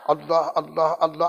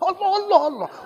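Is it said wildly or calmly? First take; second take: calmly; wildly. First: It is said calmly, in a steady heartbeat rhythm. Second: It is said wildly, like a drunk person.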